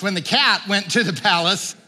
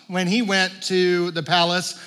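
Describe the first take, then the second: First: CAT punched higher to correct the slip; stress on CAT. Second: Said in the usual way. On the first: Real, not acted. Preacher correcting his slip from mouse, stressing "cat". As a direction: hit the word "cat" with a pitch jump. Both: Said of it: "I said the mouse".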